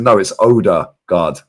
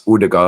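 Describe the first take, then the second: First: "Odegaard" as OH-da-gard, drawn out in mock correction; deliberately anglicised "Odegaard", said slowly; stubborn English pronunciation. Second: "Odegaard" with a short first vowel, not OH; "Odegaard" said the native way, as a correction; corrected Norwegian pronunciation. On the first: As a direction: slowly insist on "Odegaard" with a long OH. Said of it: "It's not Odegaard". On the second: Retold or imitated. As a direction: imitate the Norwegians correcting "Odegaard" to UR-duh-gard. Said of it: "pronounced his name properly".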